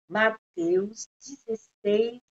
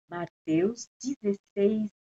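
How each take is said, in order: The two takes are said the same way.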